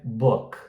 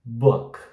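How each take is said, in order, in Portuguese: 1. A vogal é frouxa e curta. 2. A vogal é frouxa e curta.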